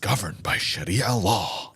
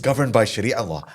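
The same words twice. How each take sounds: First: It is said in a dark, ominous tone. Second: It is said in a plain, neutral tone. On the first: The speaker casts it as something negative. The speaker calls it wrong. "It's the tone of it" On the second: The speaker is open to learning about it. The speaker calls it right. "it's not like you're saying so this country is"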